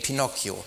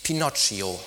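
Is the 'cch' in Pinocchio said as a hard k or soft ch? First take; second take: hard k; soft ch. First: The middle consonant is a hard k sound. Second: The middle consonant is a soft ch sound. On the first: The speaker calls it right. "Weil das H das C erhärtet, so wie in Pinocchio" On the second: The speaker calls it wrong. "Der heißt ja schließlich nicht Pinocchio"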